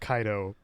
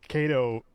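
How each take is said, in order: First: It is said with classical Latin vowels and consonants. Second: It is said with anglicized vowels and consonants. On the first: This is the proper Latin form. "in the proper Latin" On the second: This is how everyone actually says it. "nobody, including myself, says it that way"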